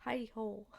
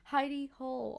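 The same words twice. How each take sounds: First: Said in the usual way. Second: Laughing. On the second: Real, not acted.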